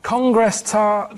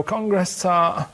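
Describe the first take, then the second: First: "Congress tart" very slowly, insisting; slow emphatic. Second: "Congress tart" spoken very slowly; slow code word. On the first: Acted. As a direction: repeat it, dragging each word. Repeated code word. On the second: Shown as a demonstration. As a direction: draw out "Congress tart" deliberately. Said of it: "you go".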